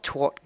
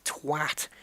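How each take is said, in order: First: "twat" said as "twot", rhyming with "squat"; the mistaken "twat" that sounds like "twot"; wrong pronunciation. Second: "twat" with a short flat a, as in "cat"; English "twat", with the a of "bat"; proper English pronunciation. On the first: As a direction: give "twat" the rounded o of "hot". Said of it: "It's not twat, guys. It's twat". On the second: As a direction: make "twat" rhyme with "hat". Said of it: "You've gotta get that A". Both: Shown as a demonstration.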